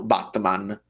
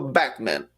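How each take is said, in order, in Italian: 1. Il nome ha una a aperta, alla maniera italiana. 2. Il nome ha una vocale alla maniera inglese. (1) "in italiano Batman" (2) "non abbiamo mai detto Batman"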